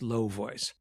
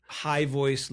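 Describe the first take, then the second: First: "low voice" dropped lower and softer. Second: "high voice" pitched above "low voice". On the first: Coach showing pitch contrast, low voice. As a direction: drop down deep on "low voice". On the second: Coach showing pitch contrast, high voice. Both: Shown as a demonstration. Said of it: "high voice, low voice".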